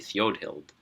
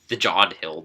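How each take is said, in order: First: The J is pronounced as a Y sound. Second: The J is pronounced as a hard J. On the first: The speaker calls it right. "I would think it should be Theodhild" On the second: The speaker calls it wrong. "they say the J as a hard J instead of a Y sound"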